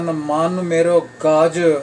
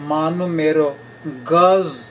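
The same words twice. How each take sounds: First: The last word ends with a j sound. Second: The last word ends with a z sound. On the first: The word means an elephant. The speaker calls it wrong. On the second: The word means a three-foot measure. The speaker calls it right.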